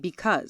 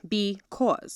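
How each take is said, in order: First: The second syllable does not sound like 'cause'. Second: The second syllable sounds like the word 'cause'. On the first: The speaker calls it wrong. "most of the world pronounces it wrong. They say because" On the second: The speaker calls it right. "It's cause. Be cause"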